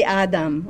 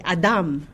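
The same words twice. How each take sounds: First: "Adam" stressed as AH-dam; first-syllable stress. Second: "Adam" stressed as ah-DAHM; last-syllable stress. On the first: Teacher showing students what they avoided, "Adam" stressed up front. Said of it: "the stress is on the second". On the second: Teacher modelling the Hebrew word, "Adam" stressed at the end. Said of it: "the stress is on the second or the last syllable". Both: Shown as a demonstration.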